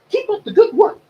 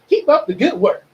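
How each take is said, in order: First: It is said in a Mickey Mouse voice. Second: It is said in his normal voice.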